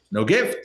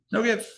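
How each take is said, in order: First: Said in the usual way. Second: Mock indignant repeat, pitched up high; like a wronged disciple who can't believe it; indignant disbelief. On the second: Disciple repeats his complaint, indignant.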